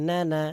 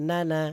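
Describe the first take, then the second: Both takes have the same delivery.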